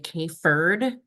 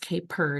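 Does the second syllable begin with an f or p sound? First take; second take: f; p. First: The second syllable begins with an f sound. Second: The second syllable begins with a p sound. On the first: The speaker calls it wrong. "friends don't let friends say K-Furd" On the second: The speaker calls it right. "It's K-Purd. It's P E"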